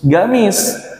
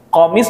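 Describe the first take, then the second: First: The word begins with a g sound. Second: The word begins with a q sound.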